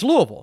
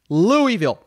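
First: It is pronounced the way locals say it. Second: It is pronounced the way outsiders say it. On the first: The speaker calls it right. "It's Louisville" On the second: The speaker calls it wrong. "It's not Louisville. No one says that"

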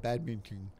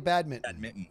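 First: The word is said as if congested. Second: The word is said in a normal, clear voice. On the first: "But if I had a cold" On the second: "How do you guys say it normally"

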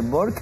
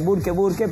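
First: The name is said with an English pronunciation. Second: The name is said with a Spanish pronunciation. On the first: This tries to say the name the way its owner does. "intentamos con nuestro pequeño inglés decirle Peter Bork" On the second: This is how the name is usually said locally. "Acá se conoce como Burke, se le dice Burke"

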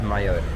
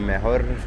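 First: The middle consonant is a y-sound. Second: The middle consonant is a breathy h-like sound. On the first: The speaker calls it right. "bo tam jest Y. Jest Mayor" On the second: The speaker calls it wrong. "nie Mejor, bo tam w hiszpańskim J czyta się jako H"

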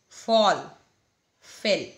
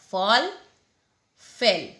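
The two takes are said the same way.

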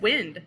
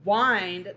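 First: The vowel is short, as in 'win'. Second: The vowel is long, as in 'find'. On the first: Moving air. The speaker calls it wrong. "what if I said wind?" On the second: To turn something to tighten it. The speaker calls it right. "I need to change the vowel sound to a long sound"

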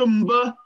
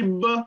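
First: The syllable starts with a nasal before b. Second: The syllable starts with a plain b. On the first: The speaker calls it wrong. "Tu dis que mba" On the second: The speaker calls it right. "moi je dis b"

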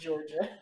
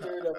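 First: The name begins with a J sound. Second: The name begins with a plain D sound. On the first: This is how the name is really pronounced. The speaker calls it right. "but really Georgia" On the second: This reads the name as it is spelled. The speaker calls it wrong. "His name is Durda"

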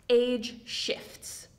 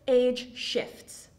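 The two takes are said the same way.

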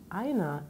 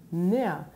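First: The word is said in full with its first syllable. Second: The word is shortened with its first syllable dropped. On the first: This is the standard full form. "statt einer" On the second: This is casual everyday speech. "sagt er näher"

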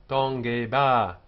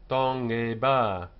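The two takes are said the same way.

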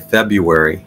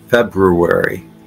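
First: The first R is left out of the word. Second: The first R is sounded in the word. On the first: The speaker calls it wrong. "A lot of times I will not pronounce the first R. I'll just say February" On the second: The speaker calls it right. "But it's both R's are pronounced February"

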